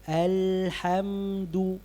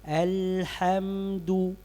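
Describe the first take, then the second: No difference in how they are said.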